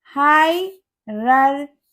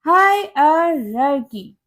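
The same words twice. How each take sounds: First: हायरार्ची drawn out slowly as hi-rar-CHEE; slow हायरार्ची ending in a CH sound; wrong pronunciation. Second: हायरार्की slowly as HI-uh-rar-kee; slow हायरार्की with a K, never CH; correct pronunciation. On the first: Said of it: "no, इसकी correct pronunciation". (हायरार्ची धीरे, अंत में 'ची') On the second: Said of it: "इसकी correct pronunciation होती है". (हायरार्की धीरे, अंत में 'की') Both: Shown as a demonstration.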